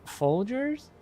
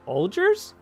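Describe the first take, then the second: First: Quiet, higher puzzled rising question; a hesitant brand guess with a lift at the end; unsure guess. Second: Quiet, puzzled rising question; unsure guess. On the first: Retelling the same guess. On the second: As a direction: guess the brand, half-asking. Sniffing the commander's coffee. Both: Retold or imitated.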